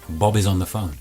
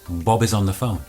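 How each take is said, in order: No difference in how they are said.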